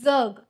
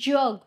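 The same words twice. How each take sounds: First: The first consonant is plain, without a y-glide. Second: The first consonant carries a y-glide, palatal. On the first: It means to live. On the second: It means the world.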